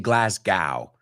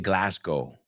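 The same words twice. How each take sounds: First: It is pronounced the American way. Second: It is pronounced the Scottish way, ending like go. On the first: "We say Glasgow" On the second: "but they say Glasgow"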